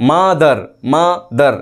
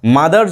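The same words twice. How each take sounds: First: mother slowly as মা, pause, দার; syllable break. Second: Said in the usual way. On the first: Shown as a demonstration. Teacher shows students two syllables, slow mother broken after মা. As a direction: stretch and split mother after মা. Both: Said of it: "আমরা কিন্তু থামতে পারছি".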